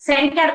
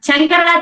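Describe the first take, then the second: First: The name begins with a 'sh' sound. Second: The name begins with a 'ch' sound. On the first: The speaker calls it right. "షా పెడితేనే మీరు శంకర్ అవుతారు" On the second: The speaker calls it wrong. "చంకర అనకూడదు"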